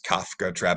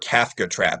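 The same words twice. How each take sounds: First: Kafka is said with its original pronunciation. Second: Kafka is said with an English-style pronunciation.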